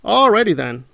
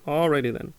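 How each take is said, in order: First: Sarcastic alrighty. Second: Said in the usual way. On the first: Retold or imitated. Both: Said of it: "repeated catchphrase".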